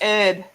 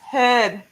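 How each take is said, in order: First: The word starts without an h sound. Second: The word starts with an h sound. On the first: "Americans don't say the H; they say herb" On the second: "It's herb"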